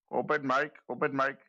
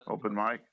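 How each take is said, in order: First: Higher, louder Indian accent attempt. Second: Said in the usual way. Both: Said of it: "Is that your best, uh, Indian accent".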